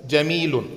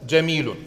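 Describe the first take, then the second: The two takes are said the same way.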